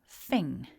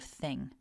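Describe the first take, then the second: First: The word begins with an f sound. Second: The word begins with a th sound. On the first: "pronouncing the th as an f" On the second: "instead of thing"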